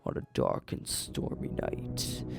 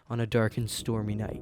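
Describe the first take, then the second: First: It is read in a creepy, spooky manner. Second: It is read in a plain, ordinary manner. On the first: "that's sounding a little creepy" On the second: "like you're just reading it by yourself"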